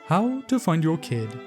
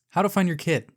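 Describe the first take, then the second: First: It is said in an exaggerated put-on voice. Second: It is said in the speaker's ordinary natural voice.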